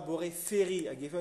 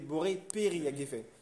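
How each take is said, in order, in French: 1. Le deuxième mot commence par un son f. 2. Le deuxième mot commence par un son p. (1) "on ne dit pas" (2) "on dit"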